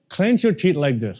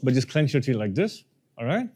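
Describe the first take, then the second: First: Said in the usual way. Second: Words pushed through clenched teeth, jaw locked. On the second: Shown as a demonstration. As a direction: say it with teeth clamped shut.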